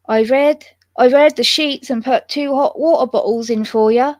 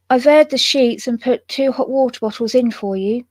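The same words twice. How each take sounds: First: Attempted West Country accent. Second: Lightly attempted West Country accent; a hint of West Country maid; pleasant West Country. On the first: Maid telling the guest about the bed, attempted West Country accent. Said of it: "I can't do West Country accent". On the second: Maid telling the guest about the bed, mild West Country accent. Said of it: "she said in a pleasant West Country voice". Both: A narrator's reading.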